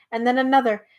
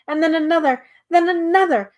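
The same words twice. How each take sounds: First: Said in the usual way. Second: Rising higher and louder with each stall; building narration. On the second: A narrator's reading. Narrator piles up the toppling stalls, building higher and louder. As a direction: build the tumble, climbing in pitch.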